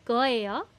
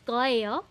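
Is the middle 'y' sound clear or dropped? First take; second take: dropped; dropped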